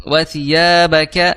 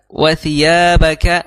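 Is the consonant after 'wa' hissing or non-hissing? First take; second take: non-hissing; non-hissing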